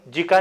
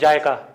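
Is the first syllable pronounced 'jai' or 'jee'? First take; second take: jee; jai. First: The first syllable sounds like 'jee'. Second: The first syllable sounds like 'jai'. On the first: The speaker calls it wrong. "जीका नहीं" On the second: The speaker calls it right. "It is जायका। जायका pronounce करते हैं उसको"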